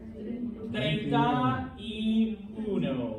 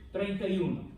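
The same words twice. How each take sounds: First: Each word is said clearly and separately. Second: The words are slurred together into one word.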